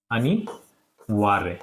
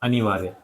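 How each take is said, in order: First: अनिवार्य stretched out very slowly, syllable by syllable; slow dictation. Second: Said in the usual way. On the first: Shown as a demonstration. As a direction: dictate अनिवार्य slowly so pupils can write it. (अनिवार्य को बहुत धीरे, अक्षर-अक्षर खींचकर बोलें) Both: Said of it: "इस तरीके से ये अनिवार्य हो जाएगा".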